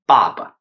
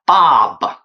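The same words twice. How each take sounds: First: The vowel is relaxed with a normal mouth opening. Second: The vowel is exaggerated with a very wide-open mouth. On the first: The speaker calls it right. "we just pronounce like 爸爸" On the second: The speaker calls it wrong. "if you pronounce like 爸爸 uh, it's strange"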